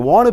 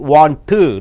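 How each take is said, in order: First: The n and t merge into one sound. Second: Both the n and t sounds are pronounced. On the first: The speaker calls it right. "So it is enough to say either N or T" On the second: The speaker calls it wrong. "You don't say N plus T"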